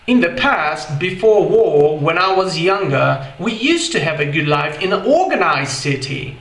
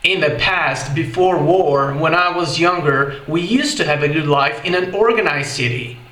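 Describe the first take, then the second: First: It is said with a British accent. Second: It is said with an American accent.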